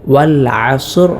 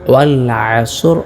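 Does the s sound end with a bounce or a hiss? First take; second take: bounce; bounce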